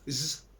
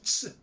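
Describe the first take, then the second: First: The letter is sounded as a buzzing z. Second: The letter is sounded as t plus s. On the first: This is how the letter sounds in French. "mais ça se prononce Z" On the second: This is how the letter sounds in German. "en allemand, le Z se prononce Ts"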